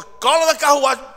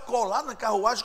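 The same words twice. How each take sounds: First: Loud, high, urgent command; commanding call. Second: Higher, questioning echo of an order; puzzled question. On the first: God sends Felipe to the chariot, loud command. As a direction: call out an order from above. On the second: Felipe questions God's order, puzzled. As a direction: repeat it back in puzzlement. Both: Acted.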